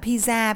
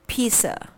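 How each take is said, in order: First: The first vowel is short, not a long e. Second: The first vowel is a long e sound. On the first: The speaker calls it wrong. "đừng đọc nó là pizza" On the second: The speaker calls it right. "Đây chính là âm long e"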